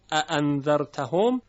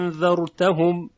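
First: اَأَنذَرْتَهُمْ with two short opening hamza syllables; example before change. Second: انذرتهم with the opening a held very long before n; long alif. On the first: Teacher names the word, short opening vowels. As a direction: say اَأَنذَرْتَهُمْ briskly, no long vowel. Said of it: "در اَأَنذَرْتَهُمْ". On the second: Teacher recites Warsh's other way, prolonged alif. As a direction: stretch the first vowel of انذرتهم into a long madd. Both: Shown as a demonstration.

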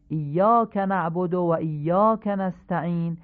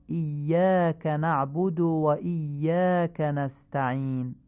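First: ایاک نعبد و ایاک نستعین with Persian vowels, "naabod"; Persian-style reading. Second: ایاک نعبد و ایاک نستعین with "na'budu"; eloquent Arabic. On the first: Teacher contrasts the Persian reading for listeners. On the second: Teacher models the eloquent reading for listeners. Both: Shown as a demonstration. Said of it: "به همین حالت فصیح بخونید".

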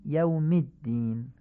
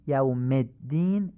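First: یوم الدین as "yawmid-din"; slow, short i after یوم; Arabic i linking یوم to الدین; Arabic kasra. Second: یوم الدین as "yawmed-din"; slow demo with e after یوم; Persian-style reading. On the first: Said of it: "به لهجهٔ عربی تمرین کنید". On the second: Teacher shows Persian-style reading first. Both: Shown as a demonstration.

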